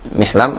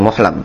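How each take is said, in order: First: The first vowel is an 'i' sound. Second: The first vowel is a 'u' sound. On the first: "Mihlam atau" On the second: "itu baca Muhlam"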